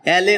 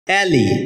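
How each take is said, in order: First: The word ends in an 'eh' sound. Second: The word ends in an 'ee' sound. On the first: The speaker calls it wrong. "এটাকে আমরা অ্যালে উচ্চারণ করে থাকি" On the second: The speaker calls it right. "যার সঠিক উচ্চারণ হচ্ছে অ্যালি"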